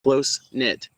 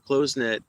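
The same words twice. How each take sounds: First: It is pronounced in the usual standard way. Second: It is pronounced as its misspelling would read. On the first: The speaker calls it right. "That's not how it's pronounced. It's close knit" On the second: The speaker calls it wrong. "why do I keep saying it like you spelled it? That's wrong"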